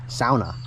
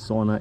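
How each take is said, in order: First: It is pronounced the Finnish way. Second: It is pronounced the English way. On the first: The speaker calls it right. "That's the proper way to say it. Sauna is a Finnish word" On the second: The speaker calls it wrong. "The English pronunciation sauna is wrong"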